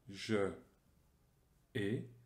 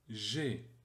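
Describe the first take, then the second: First: Je is a separate syllable before the verb. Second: Je is elided and fused with the verb. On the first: The speaker calls it wrong. "On ne dit pas je et" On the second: The speaker calls it right. "mais on dira j'ai"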